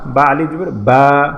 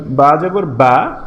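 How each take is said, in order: First: Final "বা" lengthened, slow and even; drawn-out final "বা". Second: Said in the usual way. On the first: Shown as a demonstration. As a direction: stretch the last "বা" to a long held aa. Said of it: "টেনে পড়ব". (শেষের "বা" টেনে পড়া) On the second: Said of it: "আমরা আগে পড়েছিলাম".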